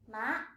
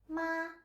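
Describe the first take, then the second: First: The pitch rises from mid to high. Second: The pitch stays high and level. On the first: "The second tone is a rising tone" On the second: "the first tone, ... It is high and flat"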